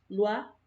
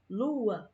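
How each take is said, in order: First: The two vowels glide together into one syllable. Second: A small break splits the vowels into two syllables. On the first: The speaker calls it wrong. "veria que só tem uma sílaba, não tem esse saltinho" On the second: The speaker calls it right. "A gente percebe que existe uma separação"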